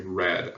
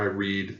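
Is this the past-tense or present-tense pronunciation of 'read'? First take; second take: past-tense; present-tense. First: It uses the past-tense pronunciation. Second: It uses the present-tense pronunciation. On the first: The action happened in the past. "in the past tense is pronounced differently" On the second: The action is happening now. "something that's happening now"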